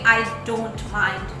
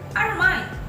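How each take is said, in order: First: The T in "don't" is clearly pronounced. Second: The T in "don't" is swallowed. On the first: The speaker calls it wrong. "native speakers never say" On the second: The speaker calls it right. "we normally swallow T"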